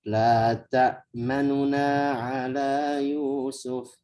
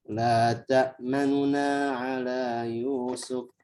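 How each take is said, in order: Both takes have the same delivery.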